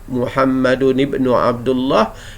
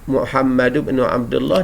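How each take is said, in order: First: Muhammad ends with an 'un' sound before ibnu. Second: Muhammad ends with a 'u' sound, no 'n'. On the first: The son phrase is the predicate of the sentence. "ia akan menjadi khabar kepada Muhammad" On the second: The son phrase describes the name as an attribute. "dia akan menjadi sifat kepada Muhammad"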